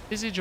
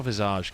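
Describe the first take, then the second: First: First Visage as VIZ-ij; English pronunciation. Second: Second Visage as viz-AHZH; French-style pronunciation. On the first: Streamer asking viewers which is right, English VIZ-ij. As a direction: say Visage with short "ij" ending. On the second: Streamer asking viewers which is right, French-style viz-AHZH. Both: Shown as a demonstration. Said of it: "Visage or Visage, guys?".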